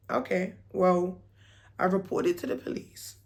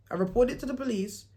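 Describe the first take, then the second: First: Said in the usual way. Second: Chuckling at your own bluff; laughing repeat. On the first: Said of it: "I turned around and said to him". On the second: Real, not acted. Vlogger to viewers, laughing at the lie she told. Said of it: "I made up a whole lie".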